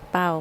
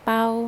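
First: The syllable is said with a low tone. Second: The syllable is said with a level mid tone. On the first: "ไม่เอก" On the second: "เสียงสามัญ"

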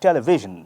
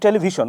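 First: It is said in a native English pronunciation. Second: It is said in a Bengali-style English pronunciation. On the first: This is how native English speakers say it. "ওরা বলছে টেলিভিশন" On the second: This is how local speakers say it. "আমরা বলছি টেলিভিশন"

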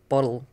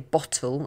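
First: The middle consonant is a soft D-like sound. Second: The middle consonant is a clear T. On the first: "they would say bottle" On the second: "we would say bottle"

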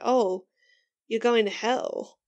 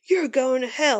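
First: It sounds gentle and genuinely concerned. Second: It sounds mean and angry.

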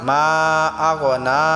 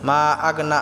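First: The vowel of 'na' is lengthened. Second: The vowel of 'na' is short. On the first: The speaker calls it right. "এখানে নাটা এক আলিফ টান হবে" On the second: The speaker calls it wrong. "আমরা অনেকে আছি মা আগনা আনহু মালুহু বলি"

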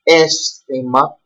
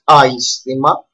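First: The first vowel is a single 'eh' sound. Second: The first vowel is a gliding 'ai' sound. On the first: The speaker calls it right. "there is alpha iota and is pronounced aisthema" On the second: The speaker calls it wrong. "not aisthema"

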